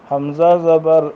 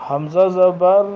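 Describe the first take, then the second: Both takes have the same delivery.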